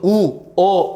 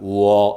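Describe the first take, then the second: First: The vowels are said apart with a break. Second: The vowels glide together slowly without a break. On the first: The speaker calls it wrong. "분리시켜서 ... 이러지는 않는다고" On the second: The speaker calls it right. "천천히 느리게 발음해요"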